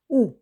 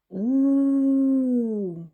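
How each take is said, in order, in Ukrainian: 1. Голосний вимовляється коротко й обривається. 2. Голосний тримається довго й протягується. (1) "Давайте вимовимо звук У коротко" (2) "А тепер спробуємо його протягнути"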